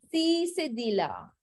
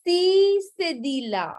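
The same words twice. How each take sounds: First: Said in the usual way. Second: Emphatic announcement. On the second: Shown as a demonstration. Teacher announces the next accent.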